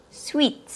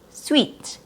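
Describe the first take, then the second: Both takes have the same delivery.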